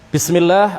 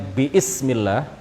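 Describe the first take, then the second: First: No extra vowel is pronounced before the 's'. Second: An extra vowel is pronounced before the 's'. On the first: The speaker calls it right. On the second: The speaker calls it wrong.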